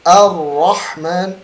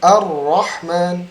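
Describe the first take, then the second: No difference in how they are said.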